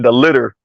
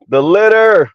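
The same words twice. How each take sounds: First: Said in the usual way. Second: LITTER stretched out, rising high then falling; emphatic dismay. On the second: Real, not acted. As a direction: draw out LITTER in higher-pitched dismay. Repeats it in mock dismay.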